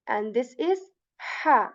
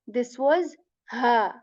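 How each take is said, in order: First: Ha said with a breathy pushed H; airy ha. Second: Ha said with a clear throat H and a short a; crisp H in ha. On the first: Teacher setting airy ha against the clear one. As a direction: push air before ha. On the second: Teacher setting clear ha against the airy one. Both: Shown as a demonstration.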